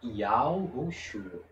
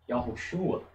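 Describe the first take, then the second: First: Said slowly, with the 'o' vowel clearly heard. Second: Said smoothly, with the 'o' vowel nearly disappearing. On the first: "Se você fala devagar, você nota" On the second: "se você pronuncia da forma correta, você ouve apenas a vogal A"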